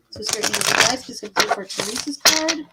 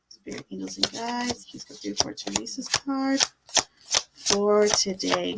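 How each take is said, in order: First: Said in the usual way. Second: Much softer, like a whispered prayer; hushed invocation. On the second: Shown as a demonstration. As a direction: call on spirit softly. Repeats her tarot invocation.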